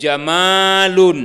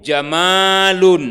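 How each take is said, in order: First: The vowel after the m is long. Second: The vowel after the m is long.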